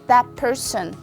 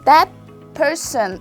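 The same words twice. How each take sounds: First: The words are linked; 'that' ends in p. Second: The words are separate; 'that' ends in t. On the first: "when you connect them, you can see the sound is changed to p" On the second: "if you pronounce these combinations individually"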